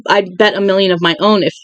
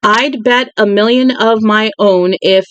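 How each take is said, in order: First: Said in the usual way. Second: Slowed-down second reading, word by word; slower careful reread. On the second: Shown as a demonstration. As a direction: take it again slowly and carefully. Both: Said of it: "rereads the line after stumbling".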